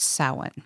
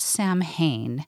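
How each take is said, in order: First: It is said differently from its spelling. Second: It is said the way it is spelled. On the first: The speaker calls it right. "but it's pronounced Samhain" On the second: The speaker calls it wrong. "Not Samhain. That's how it's spelled"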